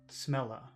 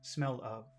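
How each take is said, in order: First: The word 'of' is reduced to a quick 'a'. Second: The word 'of' is pronounced fully and clearly.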